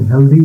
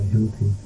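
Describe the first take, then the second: First: The middle consonant sounds like a soft d. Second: The middle consonant sounds like an aspirated t. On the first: The speaker calls it right. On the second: The speaker calls it wrong.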